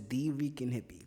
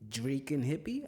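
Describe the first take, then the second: First: The first name is said as two syllables. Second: The first name is said as one syllable. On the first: The speaker calls it right. "the D stands for like the, so it's" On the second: The speaker calls it wrong. "They be like"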